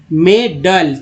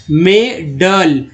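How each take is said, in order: First: Said in the usual way. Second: मेडल drawn out slowly, syllable by syllable, as a model; teacher sounding out मेडल very slowly; slow model word. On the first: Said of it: "तो यहाँ देखिए अ पढ़ा गया". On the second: Shown as a demonstration. Teacher models a word for learners, slowly spelled out. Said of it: "यहाँ पर अ पढ़ना है".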